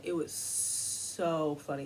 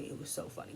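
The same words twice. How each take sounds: First: Said in the usual way. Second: Soft, unvoiced gloating whisper of "It was so funny"; whispered repeat. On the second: Real, not acted. Commentator savors the backlash, whispering the repeat.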